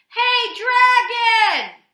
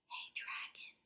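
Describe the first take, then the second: First: It is shouted loudly. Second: It is whispered softly.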